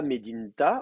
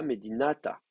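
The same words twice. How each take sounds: First: Medinta said as the wrong form, the middle A dropped, no vowel after the d; plain Medinta with the A left out. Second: Medinata said with the long A kept, four clear syllables; Medinata, A kept full and long before the ta; correct form. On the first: Teacher showing students the wrong form, Medinta in even tone. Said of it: "on ne dira pas". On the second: Teacher giving students the correct form, Medinata said calmly. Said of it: "on dira". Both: Shown as a demonstration.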